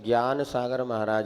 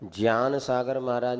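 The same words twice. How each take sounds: First: The first word begins with a 'gy' sound. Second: The first word begins with a 'jñ' sound. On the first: This is the usual, familiar way of saying it. "हम लोगों ने हमेशा ज्ञान सागर महाराज ही बोला है" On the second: This sounds odd to people. "अटपटा भी लगता है"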